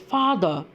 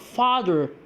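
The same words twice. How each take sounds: First: The first vowel is short. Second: The first vowel is long. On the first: "father is pronounced as" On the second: "instead of"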